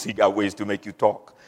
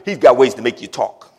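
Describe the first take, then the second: First: Low, quiet mock-mobster menace; mafia movie heavy. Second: Said in the usual way. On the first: Preacher quoting mafia movies to the congregation, mafia heavy. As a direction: drop it down like a movie gangster. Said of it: "all those mafia movies". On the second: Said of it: "that's what they say in all those".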